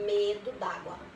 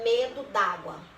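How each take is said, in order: First: The two vowels merge into one sound. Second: The same.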